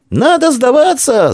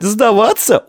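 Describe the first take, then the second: First: High, loud, slowed wail on «Надо сдаваться!», stress on «надо»; wailing cry. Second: High, anxious «Сдаваться?», rising in alarm; panicky question. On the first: Vtoryak wails to the defenders to surrender, loud high. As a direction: howl it in despair. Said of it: "завопил Вторяк". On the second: Snub-nosed boy asks if they must give up, panicky high. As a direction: ask «Сдаваться?» in dread, pitched high. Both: A narrator's reading.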